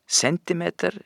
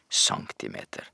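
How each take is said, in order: First: The word is pronounced the Norwegian way. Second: The word is pronounced the French way. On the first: The speaker calls it right. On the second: The speaker calls it wrong.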